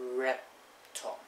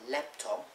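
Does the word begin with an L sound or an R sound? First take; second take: R sound; L sound. First: The word begins with an R sound instead. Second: The word begins with a clear L sound. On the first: "they'll pronounce it as raptop" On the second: "like say laptop"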